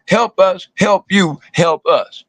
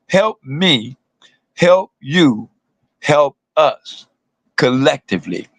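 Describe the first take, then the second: First: Said in the usual way. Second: Spaced out with pauses, each help drawn out; slow it down so the crowd gets every word; said real slow. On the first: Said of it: "I'm gonna say it again". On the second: Shown as a demonstration. Repeating the chant real slow for the crowd. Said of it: "gonna say it again real slow".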